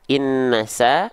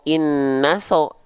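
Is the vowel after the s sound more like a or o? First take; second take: a; o. First: The vowel after the s is an open a. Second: The vowel after the s is a rounded o. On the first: The speaker calls it right. "dibacanya dengan vokal A" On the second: The speaker calls it wrong. "atau dengan vokal O"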